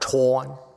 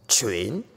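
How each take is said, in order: First: The syllable begins with a plain t sound. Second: The syllable begins with a sound other than t. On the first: The speaker calls it wrong. "but not Tuan. There's no Tuan" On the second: The speaker calls it right. "It's train or train"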